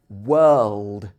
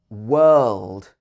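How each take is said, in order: The two takes are said the same way.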